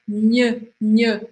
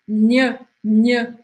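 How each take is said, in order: The two takes are said the same way.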